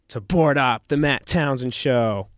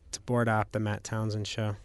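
First: It is said with excitement. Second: It is said flat and robotic.

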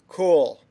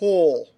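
First: It is said normally, resonating further back. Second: It is said with lips pushed far forward.

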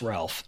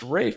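First: The name is said with an L sound. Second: The name is said without an L sound. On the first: This is the way everyone else says it. The speaker calls it right. "It's pronounced Ralph" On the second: This is the way the bearer prefers. The speaker calls it wrong. "If he wants it to be pronounced Rafe"

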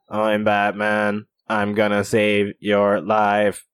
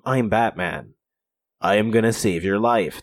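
First: The voice is flat and mechanical like a machine. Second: The voice is deep and gruff but healthy. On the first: He lost his voice and uses a machine. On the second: This is how he sounded at first.

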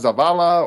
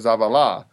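First: The stress is on the second syllable. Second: The stress is on the third syllable.

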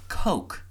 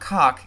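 First: The vowel is long, rhyming with smoke. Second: The vowel is short, rhyming with lock. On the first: The speaker calls it right. "it's Coke. Like the Coke brothers" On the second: The speaker calls it wrong. "It's not Cock"

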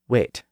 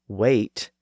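First: The vowel stays steady as a pure vowel. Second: The vowel glides as a diphthong. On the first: The speaker calls it right. "vowel sounds should be pronounced as pure vowels, not as diphthongs" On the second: The speaker calls it wrong. "instead of wait"

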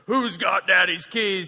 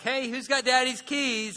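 First: It is asked in an angry, frantic tone. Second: It is asked in a calm, casual tone.

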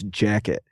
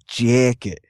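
First: It is said in the speaker's ordinary accent. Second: It is said in an exaggerated, stereotyped accent. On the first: This is how the speaker actually says it. "I'll say, for instance" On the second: This is how others claim the speaker says it. "you say it like jacket ... obviously I'm exaggerating it"

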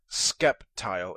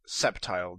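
First: The name begins with a K sound. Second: The name begins with an S sound. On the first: The speaker calls it wrong. "Sceptile is not Skeptile" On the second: The speaker calls it right. "it's Sceptile. The C is silent"

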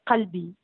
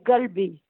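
First: It starts with a q sound, Jbala accent. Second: It starts with a g sound, Meknes accent.

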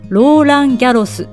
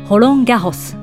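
First: The name is said with Japanese sounds. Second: The name is said with French sounds. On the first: The speaker calls it wrong. "日本ではローランギャロスと呼ばれますが" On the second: The speaker calls it right. "フランスでは何という名前かご存知ですか？"

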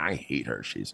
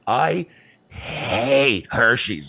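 First: The word hate is said without special emphasis. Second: The word hate is said with strong emphasis.

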